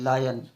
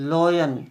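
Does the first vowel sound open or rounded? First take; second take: open; rounded. First: The first vowel is open, like 'lie'. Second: The first vowel is rounded, like 'law'. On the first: The speaker calls it right. "ये लॉयन नहीं है, ये लायन है" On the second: The speaker calls it wrong. "कई बार लोग गलत बुलवाते हैं।"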